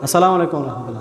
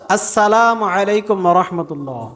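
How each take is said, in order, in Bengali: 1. প্রথম স্বরধ্বনিটি জড়ানো ও অস্পষ্ট। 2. প্রথম স্বরধ্বনিটি স্পষ্টভাবে উচ্চারিত হচ্ছে। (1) "আমরা কি বলি?" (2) "সালামের প্রথম শব্দ আলিফের উচ্চারণ স্পষ্টভাবে করতে হবে।"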